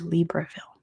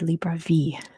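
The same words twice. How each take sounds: First: It is said with an American English pronunciation. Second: It is said with a French pronunciation. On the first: "In American English, it would be Libreville" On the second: "But there it would be Libreville"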